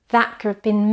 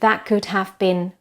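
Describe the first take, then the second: First: Could have been is reduced, with schwa vowels. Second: Could have been is said with full vowels. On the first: The speaker calls it right. "needs to be very reduced" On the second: The speaker calls it wrong. "instead of"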